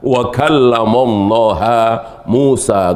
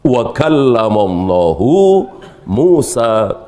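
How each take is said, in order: First: Allah ends with an 'a' vowel. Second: Allah ends with a 'u' vowel. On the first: Moses is the one who speaks. The speaker calls it wrong. "Allahnya tidak dijadikan sebagai fa'il, tapi dijadikan sebagai maf'ul bih" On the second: God is the one who speaks. The speaker calls it right. "Allah yang bicara, Nabi Musa yang mendengarkan"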